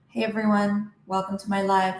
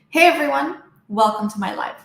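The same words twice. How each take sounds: First: It is spoken at a quieter, usual volume. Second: It is spoken at a noticeably louder volume. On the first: "If your volume is usually here" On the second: "Increase your volume"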